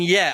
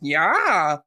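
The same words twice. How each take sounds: First: It is said in an ordinary, plain voice. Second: It is said in a silly, imitated meme voice. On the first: "rather than saying yeah" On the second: "I'll just go yeah ... that sounds absolutely ridiculously silly"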